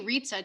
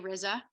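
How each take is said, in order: First: The name rhymes with pizza. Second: The name does not rhyme with pizza. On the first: "You could say Ritza too, like pizza" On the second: "usually I say Riza"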